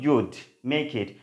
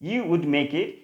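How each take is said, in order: First: You would is shortened to one syllable. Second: You would is said as two full words. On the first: "contracted form" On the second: "ইউ উডের contracted form কি"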